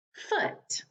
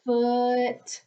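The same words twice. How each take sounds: First: Said in the usual way. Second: "Foot" stretched out sound by sound; slow blending. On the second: Shown as a demonstration. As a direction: hold the f and the short vowel in "Foot". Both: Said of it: "What's my word?".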